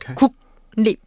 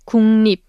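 First: Each consonant is pronounced separately and clearly. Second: The consonants blend together smoothly. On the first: The speaker calls it wrong. "not 국립" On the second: The speaker calls it right. "You should pronounce it as just 국립"

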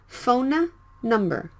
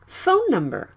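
First: The two N sounds are pronounced separately. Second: The two N sounds merge into one longer N. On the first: The speaker calls it wrong. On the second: The speaker calls it right. "You can drop one and pronounce it for a little bit longer"

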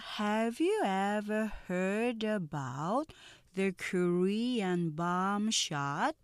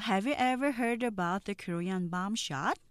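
First: The sentence is spoken slowly and carefully. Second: The sentence is spoken at normal conversational speed.

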